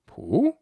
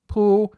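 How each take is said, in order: First: The pitch rises steadily upward. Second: The pitch stays level throughout. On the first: It means to somersault. "in an upward tone" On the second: It means a parasol. "if we say it flat, like this"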